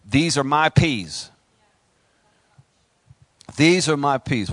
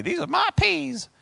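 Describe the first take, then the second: First: Slow, firm and louder stand-your-ground declaration; slow defiant declaration; defiant claim. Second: Much higher, playful imitation of his wife; wife's voice, affectionately mocked; imitating his wife. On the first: Pretend. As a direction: plant your feet and claim it. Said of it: "and you say". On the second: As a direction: lightly mimic the wife's catchphrase. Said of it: "she's always telling me".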